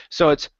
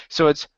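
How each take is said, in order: No difference in how they are said.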